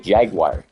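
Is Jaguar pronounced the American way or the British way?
American. The word is pronounced the American way. "We say Jaguar"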